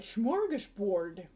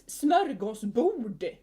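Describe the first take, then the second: First: "smorgasbord" with an English shm start and a plain "board" ending; English mispronunciation. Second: "smörgåsbord" loud and slow, crisp s start and long Swedish vowels; Swedish pronunciation. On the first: Showing how English mangles a Swedish word, anglicized "smorgasbord". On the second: Correcting English speakers on a Swedish word, emphatic Swedish "smörgåsbord". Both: Shown as a demonstration. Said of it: "they just mispronounce it so badly".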